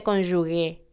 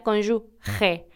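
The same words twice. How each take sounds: First: Cónyuge ending in a hard g, like gue; common mispronunciation. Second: Cónyuge ending in a raspy Spanish j sound, slowly; correct pronunciation. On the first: Host showing what many people say, deliberate mispronunciation. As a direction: say cónyuge as if written cónyugue, slowly. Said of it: "como si se escribiera G U E". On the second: Host teaching listeners the right word, careful correct pronunciation. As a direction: say cónyuge with the g as a throaty h. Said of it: "y se pronuncia". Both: Shown as a demonstration.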